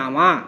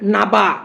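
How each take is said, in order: First: The middle consonant is a w-like glide. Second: The middle consonant is a b sound.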